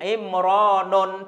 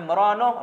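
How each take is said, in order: First: The name ends in 'u' followed by 'n'. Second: The name ends in a plain 'u' vowel. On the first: The speaker calls it wrong. "tidak boleh seperti itu" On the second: The speaker calls it right. "dhammanya tidak boleh ditanwin"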